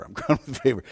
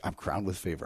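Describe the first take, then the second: First: Chuckling through the words; amused, laughing repeat. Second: Soft, low murmur to yourself; hushed declaration; quiet murmur. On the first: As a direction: let a laugh break in as you say it. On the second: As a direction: say it hushed, like a private affirmation. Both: Real, not acted.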